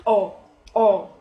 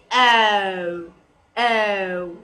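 First: Short punched "O" without a glide; brief, louder mistaken "O"; wrong O. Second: Long gliding "O", low and drawn out; slow, lower model of "O"; correct O. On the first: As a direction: cut "O" to one pure vowel. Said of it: "It's pronounced wrongly". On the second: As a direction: stretch each "O" into a diphthong. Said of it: "you have to pronounce correctly". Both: Shown as a demonstration.

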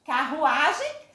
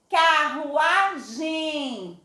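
First: Said in the usual way. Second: Carruagem sung out very slowly, final gem nasal; slow nasal demo. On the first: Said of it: "Pronuncia aí". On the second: Shown as a demonstration. Teacher sings Carruagem to class, nasal ending. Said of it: "Saiu o sonzinho também pelo nariz".

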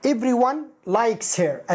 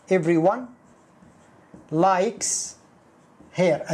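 First: Slow, careful model sentence. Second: Each word separated by pauses. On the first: Teacher slowly gives the original active sentence. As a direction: say it slowly for the class. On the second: Teacher breaks the sentence into single words. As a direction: say everyone, likes, her one at a time. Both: Shown as a demonstration. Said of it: "أصلها".

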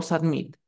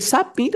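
First: "submit" stressed on MIT; stress on last syllable. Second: "submit" stressed on SUB; stress on first syllable. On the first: Teacher offering a choice, "submit" stressed at the end. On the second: Teacher offering a choice, "submit" stressed up front. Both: Shown as a demonstration. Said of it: "Sería submit".

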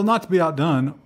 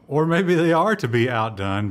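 First: "not" leaned on with a falling, higher pitch; stress on NOT. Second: "are" punched as a correction; stress on ARE. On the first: Host opening the Intel story, stressing "not". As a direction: land firmly on "not". Self-correcting contrast with next line. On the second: Host correcting himself about Intel, stressing "are". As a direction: hit "are" hard, reversing the phrase. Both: Real, not acted.

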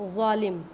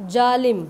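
First: जालिम soft z sound, ज़ालिम; जालिम with a buzzing z; ज़ वाला ज़ालिम. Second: जालिम with a hard j sound; जालिम said with plain j, not z; ज वाला जालिम. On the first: (ज़ के साथ ज़ालिम) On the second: (ज के साथ जालिम) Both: Shown as a demonstration. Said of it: "और एक होता है".

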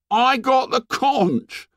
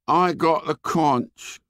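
First: Put-on high, slow hurt boy voice. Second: Put-on slow, bleak hurt boy. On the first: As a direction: plead with wounded pride. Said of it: "said Piggy in a hurt voice". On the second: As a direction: flatly repeat it, hopeless. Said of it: "said Piggy bleakly". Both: A narrator's reading.

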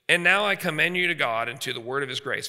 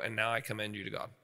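First: Scripture reading. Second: Softer, gentle blessing; hushed parental blessing; tender release. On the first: Shown as a demonstration. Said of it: "verse thirty-two". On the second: Retold or imitated. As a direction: quietly let the child go. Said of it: "they go".

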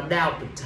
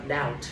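First: "doubt" mispronounced with the B sounded; "doubt" as a mistaken "dow-b-t"; wrong pronunciation. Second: "doubt" said correctly as "dowt", no B at all; quiet, correct "doubt" with the B left silent. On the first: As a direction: say "doubt" wrongly, voicing the silent B before the T. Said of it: "không đọc là doubt". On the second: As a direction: drop the B in "doubt" and go straight to the T. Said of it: "chỉ đọc là doubt thôi". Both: Shown as a demonstration.

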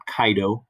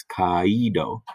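First: "kaido" said KAI-do, a and i glided into one sound; quick two-beat "kaido", KAI-do; diphthong, two syllables. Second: "kaido" drawn out as ka-EE-do, three syllables; slow "kaido" with the accent on the i: ka-EE-do; separate syllables. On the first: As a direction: run the vowels of "kaido" together like "eye". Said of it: "It's not kaido". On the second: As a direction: stretch "kaido" slowly, splitting a from a stressed ee. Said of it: "have to be in separate syllables". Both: Shown as a demonstration.

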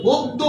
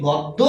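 First: গদ্য with closed "o" first vowel; correct pronunciation. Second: গদ্য with open "aw" first vowel; common mispronunciation. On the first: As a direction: say গদ্য as "god-do". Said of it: "উচ্চারণ হচ্ছে গদ্য". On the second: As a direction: say গদ্য as "gawd-do". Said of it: "আমরা উচ্চারণ করি হচ্ছে". (গদ্য-এর প্রথম স্বর খোলা অ) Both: Shown as a demonstration.

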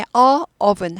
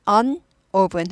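First: "a oven" with a separate drawn-out "a"; wrong article. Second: "an oven" with an n before the vowel; linking article. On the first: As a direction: leave a vowel clash between "a" and "oven". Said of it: "a oven 하지 않고". ("a oven" 모음끼리 끊어지게) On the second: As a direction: say "an" with its n leading into "oven". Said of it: "an oven 이렇게 되죠". ("an oven" n 소리 넣어서) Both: Shown as a demonstration.

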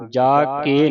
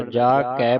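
First: ਜਾ ਕੇ louder, with a close e in ਕੇ; wrong reading. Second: ਜਾ ਕੈ with an open ai in ਕੈ; correct reading. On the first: Teacher warning the student off a misreading, wrong vowel. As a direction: show the mistaken e in ਜਾ ਕੇ. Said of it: "ਜਾ ਕੇ ਨਹੀਂ ਪੜ੍ਹਨਾ". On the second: Teacher correcting the reading for the student, correct vowel. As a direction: open ਕੈ to kai in ਜਾ ਕੈ. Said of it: "ਜਾ ਕੈ ਪੜ੍ਹਨਾ". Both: Shown as a demonstration.

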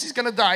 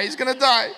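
First: Said in the usual way. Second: Said through a laugh, a bit louder. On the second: Retold or imitated. Dad telling his daughter about the bag boy, laughing. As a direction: laugh out the repeat. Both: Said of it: "I go".

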